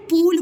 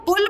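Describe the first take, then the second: First: पूल with a long, held oo. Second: पुल with a brief short u. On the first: Teacher quizzes child on two words, long-u पूल. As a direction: draw out the vowel in पूल. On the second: Teacher quizzes child on two words, short-u पुल. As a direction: say पुल quickly, vowel not stretched. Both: Shown as a demonstration. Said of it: "पुल बोलते हैं कि पूल".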